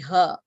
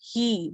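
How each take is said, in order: First: The final h is followed by an a sound. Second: The final h is followed by an i sound. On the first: The speaker calls it wrong. "we will not say it as" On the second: The speaker calls it right. "We will say"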